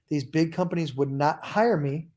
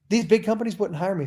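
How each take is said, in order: First: It is spoken slowly and deliberately. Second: It is spoken at a normal, quick pace.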